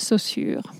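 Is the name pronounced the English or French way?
French. The name is said with a French pronunciation. "I'm just going to pronounce it the French way"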